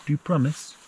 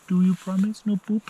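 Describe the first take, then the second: First: Said in the usual way. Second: Playful high dog talk. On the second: Real, not acted.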